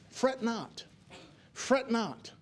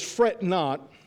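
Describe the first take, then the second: First: Repeated softly, almost hushed; gentle hushed repeat. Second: Said in the usual way. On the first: Shown as a demonstration. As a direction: let it drop to a hush.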